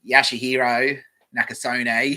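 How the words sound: It is read in a broad Bogan accent.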